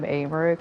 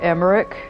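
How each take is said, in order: First: The name begins with a long 'ay' vowel. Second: The name begins with a short 'eh' vowel. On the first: "I call him Aymeric with A" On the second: "His name is more actually close to Emmerich"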